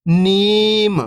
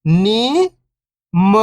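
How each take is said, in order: First: Whole word, level then falling at the end; syllables blended. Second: First syllable lifting, pause, second falling. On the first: Teacher showing beginners the joined word, syllables blended. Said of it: "तो मिलके बन जाएगा". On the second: Teacher breaking a word down for beginning readers, syllable by syllable. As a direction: sound out each syllable alone, long and separated. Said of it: "एक अक्षर का उच्चारण करके". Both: Shown as a demonstration.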